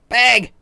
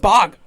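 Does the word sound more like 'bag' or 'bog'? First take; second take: bag; bog. First: The vowel is a front 'a' sound, like bag. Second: The vowel is an open 'ah' sound, like bog. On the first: This is how the locals say it. "It's bag" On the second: This is how other people say it. "everyone says bog"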